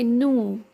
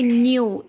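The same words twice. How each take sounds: First: The vowel is plain 'oo', 'noo'. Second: The vowel has a 'y' glide, 'nyoo'. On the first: The speaker calls it right. "they say new" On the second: The speaker calls it wrong. "they don't say new"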